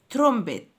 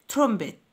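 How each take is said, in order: Both takes have the same delivery.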